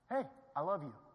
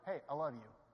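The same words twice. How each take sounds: First: It sounds warm and genuinely meant. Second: It sounds empty and insincere.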